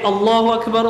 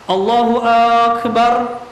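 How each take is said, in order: First: No vowel is drawn out; all are short. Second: The opening vowel of Akbar is drawn out long. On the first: The speaker calls it right. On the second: The speaker calls it wrong. "dipanjangkan huruf hamzah di akbarnya"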